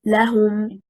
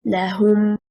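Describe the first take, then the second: First: لهم with stress on the first syllable, la-hum; preposition lam stress. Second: لهم with stress on the second syllable, la-HUM; affirmation lam stress. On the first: Teacher demonstrating preposition لهم, stress on LA. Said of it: "the straight performance is". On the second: Teacher demonstrating affirmation لهم, stress on HUM. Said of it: "If it is an affirmation lam". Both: Shown as a demonstration.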